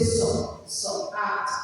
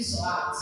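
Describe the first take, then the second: First: "so" as a separate syllable before "at"; vowel added to consonant. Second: "so" and "at" left as two pieces; child's faulty blending. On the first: Teacher showing a faulty way to sound out sat, vowel added. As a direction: say "so", break, then "at". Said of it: "show you where the problems have come". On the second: Child reading back what the teacher modelled, unblended. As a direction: keep "so" apart from "at", unblended. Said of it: "They give you". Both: Shown as a demonstration.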